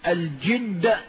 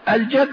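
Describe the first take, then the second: First: The first vowel is 'i' (jidd). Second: The first vowel is 'a' (jadd). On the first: It means effort or diligence. "وقيل بالكسر الجد بمعنى الاجتهاد" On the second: It means luck or fortune. "الجد قالوا بمعنى الحظ"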